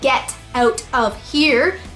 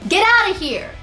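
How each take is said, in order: First: Each word is said separately and clearly. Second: The words run together as one joined unit. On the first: The speaker calls it wrong. "you don't say get out of here" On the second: The speaker calls it right. "You join your words together"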